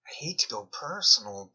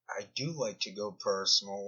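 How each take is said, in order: First: Hate leaned on as the key word; "hate" pressed hard, the rest plain; mock-reluctant, with the weight on "hate"; stress on hate. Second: "do" stressed, said a bit softer. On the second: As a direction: do punched as a sly admission. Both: Shown as a demonstration.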